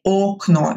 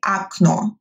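First: "окно" with a full o in both syllables; unreduced o. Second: "окно" said a-KNO, first o as a; reduced o. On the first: Teacher showing the mistake, "окно" with a clear first o. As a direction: say "окно" as spelled, o-KNO. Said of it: "we don't say окно". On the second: Teacher modelling correct speech, "окно" as a-KNO. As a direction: open the first vowel of "окно" to a, stress the end. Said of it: "We say окно". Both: Shown as a demonstration.

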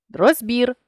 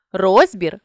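First: Розбір with final БІР stressed; stress on last syllable. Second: Розбір with РОЗ stressed; stress on first syllable. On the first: Teacher shows a stress variant, розбір stressed on БІР. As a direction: land on БІР ending розбір. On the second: Teacher shows a stress variant, розбір stressed on РОЗ. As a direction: punch the opening РОЗ of розбір. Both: Shown as a demonstration. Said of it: "наголосивши той чи інший склад".

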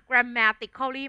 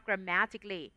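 First: "grammatically" as gram-ma-tik-khaw-lee, five syllables; wrong pronunciation. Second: "grammatically" as gram-MA-tik-lee, four syllables; correct pronunciation. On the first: Teacher showing what not to say, "grammatically" with full -khaw-lee. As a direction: sound out the "-cal-" in "grammatically". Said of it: "ไม่อ่านแบบนั้น". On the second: Teacher modelling the reading, "grammatically" shortened to gram-ma-tik-lee. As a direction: drop the "-al-" in "grammatically". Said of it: "อ่านว่า". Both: Shown as a demonstration.

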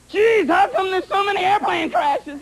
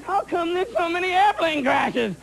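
First: Whiny mock complaint. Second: Said in the usual way. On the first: Comic crowd griping about crashes, shouted mock complaint. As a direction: bellow it like a baffled passenger. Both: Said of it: "everyone's going".

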